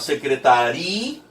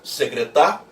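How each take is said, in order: First: The stress falls on the syllable ri. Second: The stress falls on the syllable ta. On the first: "e passou a ser o ri" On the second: "A sílaba tônica deixou de ser o tá"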